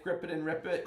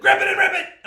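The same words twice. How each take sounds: First: Said in the usual way. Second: Loud, high all-caps yell. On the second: Shown as a demonstration. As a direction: correct yourself with a sudden high shout. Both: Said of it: "do I need to yell it".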